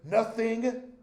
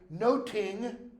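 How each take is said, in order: First: The middle consonant is a 'th' sound. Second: The middle consonant is a 't' sound. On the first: This is how the word is said today. "Modern pronunciation" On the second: This is how the word was said in Shakespeare's time, punning on taking note. "In Shakespeare's day"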